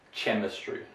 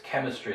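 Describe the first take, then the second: First: The word begins with a ch sound. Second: The word begins with a hard k sound. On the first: The speaker calls it wrong. "It's not pronounced chemistry" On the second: The speaker calls it right. "Or here it's chemistry"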